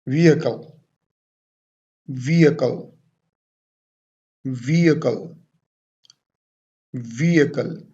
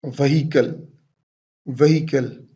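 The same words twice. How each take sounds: First: Vehicle as "VEE-uh-kul", H silent; correct pronunciation. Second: Vehicle as "veh-HEE-kul", H sounded; wrong pronunciation. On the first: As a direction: stress the first syllable of Vehicle and drop the H. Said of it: "What is the correct pronunciation?". (Vehicle का सही उच्चारण, "वीअकल") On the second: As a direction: put a sounded H and the stress in the middle of Vehicle. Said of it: "this is not the correct way to pronounce this word". (Vehicle का ग़लत उच्चारण, "व्हीकल" में ह बोलकर) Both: Shown as a demonstration.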